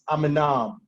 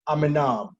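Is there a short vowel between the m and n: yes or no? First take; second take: yes; yes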